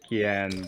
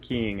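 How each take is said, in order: First: The name is said as two syllables. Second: The name is said as one syllable. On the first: This is how the speaker has always said it. "I've always pronounced it Kian" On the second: This is how the other player says it. "you pronounce it Keen"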